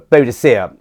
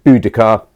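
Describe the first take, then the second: First: The name is said with four syllables, ending '-dicea'. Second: The name is said with three syllables, ending '-dica'. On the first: This is the older, Victorian form of the name. The speaker calls it wrong. "is what they called her in Victorian times" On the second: This is the form now thought more accurate. The speaker calls it right. "the correct pronunciation would probably be more like"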